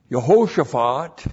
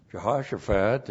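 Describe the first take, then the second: First: "Yehoshaphat" as yuh-HO-shuh-faht, loud; Hebrew pronunciation. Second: "Jehoshaphat" as juh-HOSH-uh-fat; English "Jehoshaphat" with J and short O; English pronunciation. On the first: Preacher recaps the one Hebrew word, "Yehoshaphat" with a Y. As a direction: stress the long O in Y-initial "Yehoshaphat". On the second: Preacher gives English equivalent, "Jehoshaphat" starting with a J. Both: Shown as a demonstration. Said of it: "Jehoshaphat in the English".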